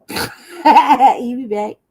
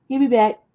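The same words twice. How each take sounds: First: Slow laughing repeat of He'll be back; laughing, drawn out. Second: Said in the usual way. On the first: Shown as a demonstration. Teasing that Jesse will return, laughing slowly. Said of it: "repeated laughing slowly". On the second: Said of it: "repeated slower".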